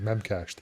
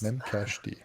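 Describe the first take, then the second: First: The name ends without a separate letter D. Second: The name ends with a separate letter D. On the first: "I always thought it was like Memcached" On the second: "Is that how we pronounce pronounce that?"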